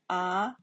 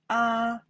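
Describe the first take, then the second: First: The pitch rises from middle to high. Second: The pitch stays high and level. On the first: "Second one" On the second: "The first time"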